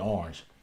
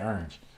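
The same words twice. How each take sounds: First: It is said in a standard, non-country accent. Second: It is said in his dad's country accent.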